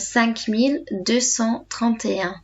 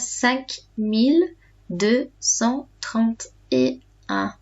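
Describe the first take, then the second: First: The number is said at a normal speed. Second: The number is said more slowly.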